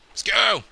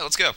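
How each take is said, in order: First: Higher, drawn-out exclamation; hammed-up eager call; playful rallying cry. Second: Said in the usual way.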